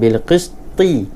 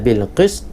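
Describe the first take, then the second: First: The final t is followed by an added i vowel. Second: The final t is lightly sounded with no vowel. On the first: The speaker calls it wrong. "bukan bil qisti. Jadi salah" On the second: The speaker calls it right. "Ta matikan tapi dibunyikan sedikit"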